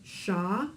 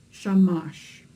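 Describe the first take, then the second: First: "sha-mash" split into two beats, sha then mash; split syllables. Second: "shamash" blended into one word, louder and falling. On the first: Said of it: "So this becomes sha-mash". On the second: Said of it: "So this becomes". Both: Shown as a demonstration.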